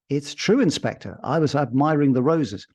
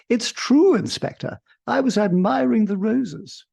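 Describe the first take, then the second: First: The female character voice is only lightly hinted. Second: The female character voice is heavily overdone. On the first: The speaker calls it right. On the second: The speaker calls it wrong.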